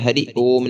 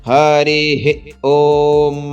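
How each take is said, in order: First: Hari ends plainly with no breathy h sound. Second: Hari ends with a short breathy h sound. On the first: The speaker calls it wrong. "ये हरि ओम नहीं है" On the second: The speaker calls it right. "यह है हरिः हरिः ओम"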